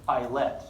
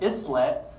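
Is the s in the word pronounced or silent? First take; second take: silent; pronounced. First: The s is silent in the word. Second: The s sound is pronounced in the word. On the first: The speaker calls it right. "It's island, islet" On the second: The speaker calls it wrong. "So commonly mispronounced islet"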